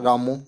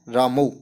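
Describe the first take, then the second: First: रामो ending in a plain long o; रामो with o instead of au; common mispronunciation. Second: रामौ ending in a clear au diphthong; रामौ with proper au, not o; correct pronunciation. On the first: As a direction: say रामो the way students wrongly read it, with o. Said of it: "इसको पढ़ते हैं रामो". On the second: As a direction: say रामौ with the full au sound at the end. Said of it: "तो इसका शुद्ध उच्चारण करेंगे हम". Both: Shown as a demonstration.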